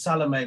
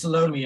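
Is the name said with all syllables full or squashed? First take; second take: full; squashed. First: The name is said with all syllables full. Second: The name is said squashed, its syllables compressed. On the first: This is the classical European form of the name. "the classical European pronunciation is Salome" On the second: This is the South African form of the name. "in South Africa, it sort of gets squashed"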